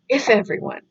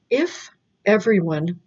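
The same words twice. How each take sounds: First: The words run together, with linking. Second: The words are said separately, without linking. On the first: "But it's" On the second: "not linking"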